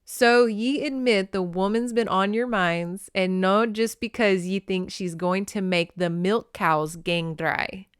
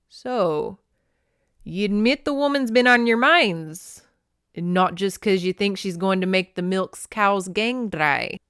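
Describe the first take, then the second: First: Careful Scottish sounding-out, near usual voice; light, deliberate Scots dialect; reread Scots. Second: Amateur Scots, opening loud and raised; bad Scottish accent. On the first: Shown as a demonstration. Reader rereading phonetic dialogue, careful Scottish accent. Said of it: "I have to reread this". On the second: A narrator's reading. Clan elder teasing his men about the woman, Scottish accent. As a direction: put on a rough Scottish brogue. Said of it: "I can't do a Scottish accent".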